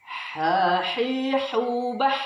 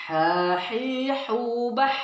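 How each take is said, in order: The two takes are said the same way.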